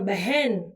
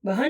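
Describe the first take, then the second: First: The second vowel is an 'e' sound. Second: The second vowel is a plain 'a' sound. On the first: This is the pronunciation matching the written form. The speaker calls it right. "પણ બહેન એમ કહેવાનું છે" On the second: This is the casual everyday pronunciation. The speaker calls it wrong. "બહન બહન નહીં"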